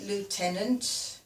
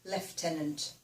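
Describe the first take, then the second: First: It is said in a local Black Country way. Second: It is said in a standard English way. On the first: "I say lieutenant" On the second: "in English, I think it should actually be lieutenant"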